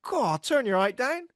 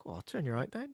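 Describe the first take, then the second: First: High, slow mock complaint; imitated friend's heckle. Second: Much softer, under-the-breath aside; said to oneself. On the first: Friend heckling someone tall, high mock complaint. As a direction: put on a friend's high-pitched grumble. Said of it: "he, he goes". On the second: Retold or imitated. Repeating friend's line to oneself, quiet aside. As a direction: say it quietly, as if only to yourself. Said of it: "I say it to myself sometimes".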